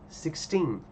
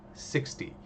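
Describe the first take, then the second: First: "sixteen" with a long, stressed second syllable; stress on TEEN. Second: "sixty" with a stressed first syllable and short "ty". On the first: Teacher contrasts it with sixty, stress on final TEEN. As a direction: lean on the end: six-TEEN. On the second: Teacher contrasts it with sixteen, stress on first syllable SIX. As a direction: hit the start: SIX-ty. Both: Shown as a demonstration. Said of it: "ó a diferença".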